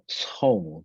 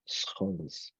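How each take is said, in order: First: The name is said in a non-Dutch way. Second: The name is said in the Dutch way. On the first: The speaker calls it wrong. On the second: The speaker calls it right.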